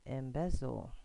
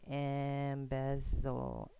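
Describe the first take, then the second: First: Said in the usual way. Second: Embezzle said slowly, stress on the second syllable; sounded out. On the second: Shown as a demonstration. Teacher modelling how to pronounce embezzle, slowly. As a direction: stretch out embezzle and lean on bez. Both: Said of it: "the way you pronounce it".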